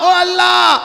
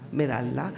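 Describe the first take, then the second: First: The call is said loudly, raising the voice. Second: The call is said softly and quietly.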